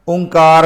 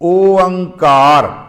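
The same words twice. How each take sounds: First: The word is said smoothly as one unit. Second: The word is split into three separate parts. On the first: The speaker calls it wrong. "ओंकार नहीं कह देना" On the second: The speaker calls it right. "इहदा उचारण असी तीन हिस्सियां विच करना"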